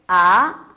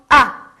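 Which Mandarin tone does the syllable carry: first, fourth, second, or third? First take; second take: second; fourth. First: The pitch rises from mid to high. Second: The pitch falls sharply from high to low. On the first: "이성" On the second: "사성"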